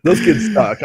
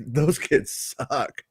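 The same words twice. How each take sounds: First: Said in the usual way. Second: Slow, softer, stretched-out SUCK; drawn-out verdict. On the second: Retold or imitated. Parent judging other kids at Disneyland, slow muted verdict. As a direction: drag it out under your voice.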